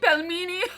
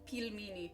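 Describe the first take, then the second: First: The first vowel does not sound like 'peel'. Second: The first vowel sounds like the one in 'peel'. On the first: The speaker calls it wrong. "No, not like that. The way I said it before was better" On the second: The speaker calls it right. "Like peel. ... I said it right"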